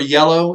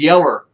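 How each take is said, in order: First: It is said in the standard way. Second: It is said in an old country way. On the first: This is the usual way to say it. "the color yellow" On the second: This is how older relatives said it. "It was yeller"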